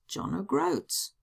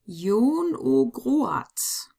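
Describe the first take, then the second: First: The name is read with English letter sounds. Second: The name is read with German letter sounds. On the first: "it's John O'Groats" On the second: "pronounce them in German"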